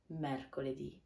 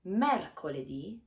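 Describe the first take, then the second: First: Mercoledì repeated softer, stressed ì; soft echo. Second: Mercoledì with stress on the final ì; clear model word. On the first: Teacher echoing mercoledì softly. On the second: Teacher modelling mercoledì for learners. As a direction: say mercoledì rising on the last ì. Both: Shown as a demonstration. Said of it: "we have".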